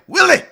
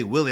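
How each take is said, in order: First: "Willie!" shouted very high in a put-on accent; exclaimed accented Willie. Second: Said in the usual way. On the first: Shown as a demonstration. Podcast guest showing how he greets men named Willie, high accented shout. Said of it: "gotta say it with an accent". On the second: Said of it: "I just can't say Willie".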